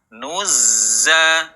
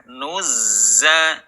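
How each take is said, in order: Both takes have the same delivery.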